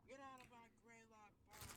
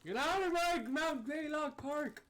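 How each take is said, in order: First: Put-on high cranky old ranger yelling; sputtering foiled villain. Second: Very high, slow, loud cranky geezer; sputtering foiled villain. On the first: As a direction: shake your fist at the kids. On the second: Pretend. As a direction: scream it like a furious old ranger. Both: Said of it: "old park ranger ... shaking his fist".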